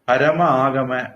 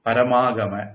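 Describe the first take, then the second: First: The two words are kept separate. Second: The two vowels merge into one long vowel.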